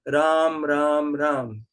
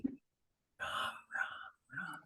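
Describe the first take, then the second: First: It is said fairly loudly. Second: It is whispered with breath only.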